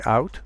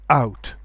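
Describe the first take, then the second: First: Said in the usual way. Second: OUT with a glottal stop at the onset; hard attack. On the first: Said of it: "You can say". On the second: Shown as a demonstration. Teacher contrasts two ways, hard glottal attack on OUT. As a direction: hit the vowel of OUT with a hard catch. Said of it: "with a glottal stop".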